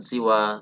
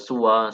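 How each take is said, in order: First: The first vowel is an i sound. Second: The first vowel is a u sound. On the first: "siwa seperti ridha" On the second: "Boleh dibaca suwa seperti halnya kata huda"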